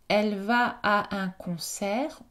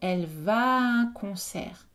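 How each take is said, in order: First: The two vowels are said as separate sounds. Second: The two vowels merge into one long vowel.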